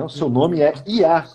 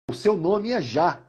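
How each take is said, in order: First: The name begins with a y sound. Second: The name begins with a zh sound. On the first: The speaker calls it right. "é o termo Iá, que é o termo com Y" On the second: The speaker calls it wrong. "não é esse Já que a gente está pensando"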